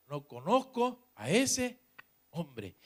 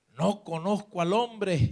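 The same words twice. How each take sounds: First: Slow, halting oath, pausing before "hombre"; swearing denial. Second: Raised, drawn-out sworn denial; cursing denial. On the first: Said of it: "a maldecir y a jurar". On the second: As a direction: swear on "hombre" that you don't know him. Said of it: "comenzó a maldecir y a jurar". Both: Acted.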